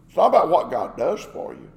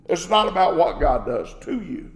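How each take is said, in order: First: "for" set against its opposite; stress on FOR. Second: "to" picked out as the contrast; stress on TO. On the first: Preacher correcting conditional love of God, stress on "for". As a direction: make "for" the point of contrast. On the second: Preacher correcting conditional love of God, stress on "to". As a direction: lean on "to" against its opposite. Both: Real, not acted.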